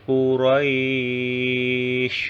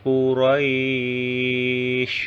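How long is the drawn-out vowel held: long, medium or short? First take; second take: long; long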